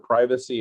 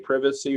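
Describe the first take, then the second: First: It is said with an American pronunciation. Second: It is said with a British pronunciation.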